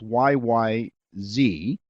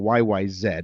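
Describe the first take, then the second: First: The last letter is said as zee. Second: The last letter is said as zed.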